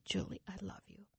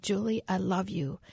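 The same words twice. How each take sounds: First: Very soft, hushed loving voice; voice in the night. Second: Same loving voice, now at full speaking level; voice grown louder. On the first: Voice waking a sleeper in the night, very hushed. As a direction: imitate a faint voice from far away. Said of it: "And the voice said". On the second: Voice in the middle of the night, now clearly audible. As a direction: say it clearly, no longer hushed. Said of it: "that voice got louder and louder". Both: Retold or imitated.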